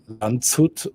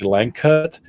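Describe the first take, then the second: First: It is read with German letter sounds. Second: It is read with English letter sounds. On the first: "in German, I would probably say" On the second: "and in English, probably"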